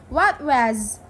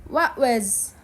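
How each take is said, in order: The two takes are said the same way.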